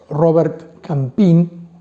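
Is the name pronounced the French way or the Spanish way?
Spanish. The name is said with Spanish pronunciation.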